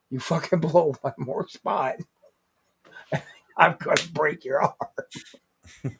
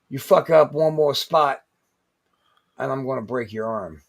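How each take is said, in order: First: Threat broken up by chuckles; laughing threat. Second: Measured threat. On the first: Veteran's warning retold to podcast friends, laughing threat. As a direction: laugh through the warning, slowing at the end. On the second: Veteran to rookie in the corner, retold stern threat. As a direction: lay down the threat, pause, then sink into it. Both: Retold or imitated.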